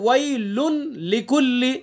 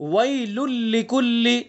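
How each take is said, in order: First: The n sound is clearly pronounced before l. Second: The n merges fully into a doubled l. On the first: "असल क्या है" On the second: "अब तनवीन की आवाज यहां पर खत्म हो गई जब इदगाम किया हमने"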